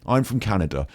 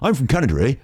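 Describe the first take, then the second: First: It is said in the speaker's normal accent. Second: It is said in a put-on Canadian accent.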